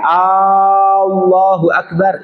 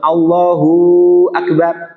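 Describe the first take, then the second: First: The opening vowel of Allah is drawn out. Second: The hu ending of Allahu is drawn out. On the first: "Hamzahnya Allah jangan dimatkan" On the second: "Allahu ditambahkan wawu sukun"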